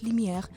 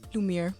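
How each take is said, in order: First: The name is said with its original accent. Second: The name is said with the local accent. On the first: This is how the name is really said. "but it's Lumiere Bukasa" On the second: This is how people here say it. "here it's Lumiere"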